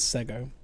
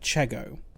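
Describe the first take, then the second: First: The name begins with an 's' sound. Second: The name begins with a 'ch' sound. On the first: The speaker calls it right. "It's Sego" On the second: The speaker calls it wrong. "Polish Sea like Chego. Except it's not"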